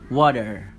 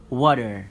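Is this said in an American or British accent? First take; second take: American; American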